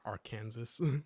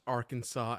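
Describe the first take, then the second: First: The word ends with an s sound. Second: The word ends without an s sound.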